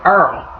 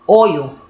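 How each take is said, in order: First: The word is said with an 'er' vowel. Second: The word is said with a clear 'oy' vowel. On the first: This is how people from New Orleans say it. "Y'all call it Earl" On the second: This is how people in Harlem say it. "just so you can hear how we pronounce it"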